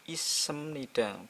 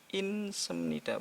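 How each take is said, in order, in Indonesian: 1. Tidak ada konsonan yang mengakhiri suku kata pertama. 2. Bunyi n mengakhiri suku kata pertama. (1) "Ini jadinya isemnida" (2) "bukan pula"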